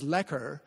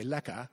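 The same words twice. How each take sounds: First: "lekker" with a clear final r, as a Canadian says it; Canadian pronunciation. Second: "lekka" with no r, ending on an open "a"; South African pronunciation. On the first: Author giving the Canadian way, "lekker" with an r. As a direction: say "lekker" ending on a pronounced r. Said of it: "which we would pronounce as". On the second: Author showing the South African way, "lekka" without r. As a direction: drop the r, say "lekka". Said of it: "South Africans, I think, would say". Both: Shown as a demonstration.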